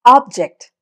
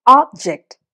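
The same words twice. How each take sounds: First: object with the first part ഒബ് hit; object, weight on ഒബ്; stress on OB. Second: object with ജക്റ്റ് hit; object, weight on ജക്റ്റ്; stress on JECT. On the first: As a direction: say object as OB-ject, noun. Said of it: "അത് noun". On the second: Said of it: "അവിടെ ജക്റ്റിനാണ് ആ stress". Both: Shown as a demonstration.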